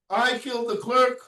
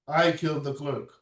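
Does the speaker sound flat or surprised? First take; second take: surprised; flat. First: It is said with surprise and questioning intonation. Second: It is said flatly, without surprise or pauses. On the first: The speaker is asking in disbelief about the accusation. "like that, out of surprise" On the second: The speaker is confessing to the killing. "without the intonation, without the pauses, without expressions of surprise"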